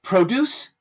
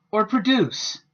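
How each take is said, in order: First: Produce with the first syllable stressed, said higher and louder; stress on PRO. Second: Produce with a weak schwa first syllable and stress on duce. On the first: Teacher showing the noun, stress on PRO. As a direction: hit PRO in Produce, rising tune. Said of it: "another example of how the I P A can be useful". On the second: Teacher showing the verb, stress on the second syllable. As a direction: say produce as pruh-DUCE, falling. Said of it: "the pronunciation changes the parts of speech". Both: Shown as a demonstration.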